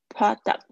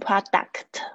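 First: The final k and t sounds are very light. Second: The final k and t sounds are pronounced strongly. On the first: The speaker calls it right. "这个kt 很轻的" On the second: The speaker calls it wrong. "你不要硬要念成product，就很口音太重"

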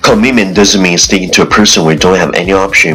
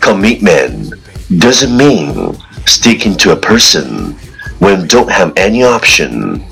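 First: It is said very fast, in one breath. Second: It is said at a normal, steady pace.

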